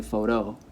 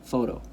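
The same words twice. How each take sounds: First: PHOTO wrongly stressed foh-TOH; stress on last syllable. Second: PHOTO said the natural way, FOH-toh; stress on first syllable. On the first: Teacher showing what you'd never say, photo stressed on TOH. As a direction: land hard on the end of photo, TOH. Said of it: "you would never say". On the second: Teacher giving the familiar word, photo stressed on FOH. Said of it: "It doesn't even sound like". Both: Shown as a demonstration.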